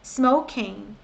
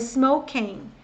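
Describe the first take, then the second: No difference in how they are said.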